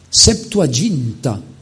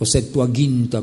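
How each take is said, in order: First: The g is soft, like a j sound. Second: The g is hard and guttural.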